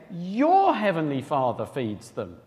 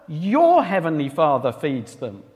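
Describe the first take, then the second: First: YOUR weighted, the line slowed right down; preacher repeating verse slowly, pressing on YOUR; stress on YOUR, slow. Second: Your lifted as the key word; preacher quoting verse, stressing Your. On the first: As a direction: dwell on YOUR, then let the rest follow slowly. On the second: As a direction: lean on Your, not their. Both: Shown as a demonstration. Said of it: "He's emphasizing he is your heavenly Father".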